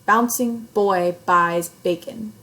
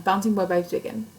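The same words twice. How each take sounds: First: Put-on slow, loud "Bouncing boy buys bacon", each B punched; stressed B sounds. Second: Said in the usual way. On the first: Shown as a demonstration. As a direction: pop the B starting every word of "Bouncing boy buys bacon". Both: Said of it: "It sounds different".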